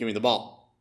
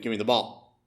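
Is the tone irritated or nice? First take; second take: irritated; irritated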